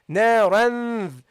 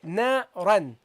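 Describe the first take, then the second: First: The final n is long and nasal. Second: The final n is short and plain. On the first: "lean towards the point of articulation of the dhal ... prolong the gunna" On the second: "normally you would say na ran"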